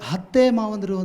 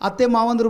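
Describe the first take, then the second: First: The first word starts with an h sound. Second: The first word starts with a plain vowel. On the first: The speaker calls it wrong. "ಅಂತಿದ್ರಿ" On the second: The speaker calls it right. "ಅರಮನೆ ಇಲ್ಲಿ ಅತ್ತೆ ಅನ್ನೋದು"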